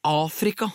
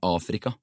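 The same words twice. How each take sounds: First: AFRIKA thrown out high in disbelief; incredulous exclamation. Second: Said in the usual way. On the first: A narrator's reading. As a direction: repeat it as if it were absurd, pitched high. Incredulous repeat of the place name. (vantro utrop, høyt i tonen)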